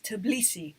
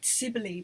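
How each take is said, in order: First: It starts with a tb consonant cluster. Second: It starts with a plain s sound. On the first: The speaker calls it right. "it's Tbilisi" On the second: The speaker calls it wrong. "I always want to say Sibley, like Sibley, but it's not"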